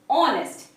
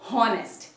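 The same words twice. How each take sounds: First: The word begins with a vowel, h silent. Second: The word begins with an audible h sound. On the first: The speaker calls it right. "the correct pronunciation is honest" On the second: The speaker calls it wrong. "not honest"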